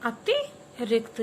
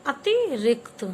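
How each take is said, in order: First: अतिरिक्त stretched out slowly, each syllable separate; slow teacher drill of अतिरिक्त; very slow model pronunciation. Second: अतिरिक्त said slowly and loud, syllable by syllable; careful classroom model of अतिरिक्त; slow model pronunciation. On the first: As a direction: draw out अतिरिक्त for children to copy. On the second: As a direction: spell out अतिरिक्त in sound for the class. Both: Shown as a demonstration. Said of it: "आधा क्या है?".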